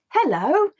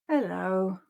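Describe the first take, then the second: First: The word sounds happy. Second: The word sounds sad.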